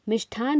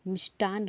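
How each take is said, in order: First: मिष्ठान said with aspirated ठ; breathy ठ in मिष्ठान, the wrong form. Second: मिष्टान said with plain unaspirated ट; right form मिष्टान. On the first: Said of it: "मिष्ठान नहीं होता है". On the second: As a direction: clean ट in मिष्टान, the correct form. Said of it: "बल्कि मिष्टान होता है". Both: Shown as a demonstration.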